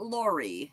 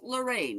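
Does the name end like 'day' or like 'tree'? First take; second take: tree; day. First: The name ends with an 'ee' sound. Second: The name ends with an 'ay' sound. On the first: The speaker calls it wrong. "not Laurie" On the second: The speaker calls it right. "it's pronounced LeRae"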